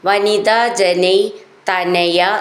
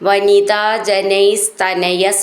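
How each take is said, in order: First: The two words are said separately, without an s. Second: The words are joined, with an s before 'tanaya'. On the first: "തനയ എന്നാണത്" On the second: "ചേർത്ത് ചൊല്ലുമ്പോൾ സാന്നും കൂടിയും വരുന്നതാണ്"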